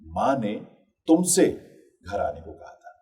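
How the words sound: The stress falls on the word तुमसे. It was you who was told, nobody else. "यानी तुमसे कहा था, किसी और से नहीं कहा था।"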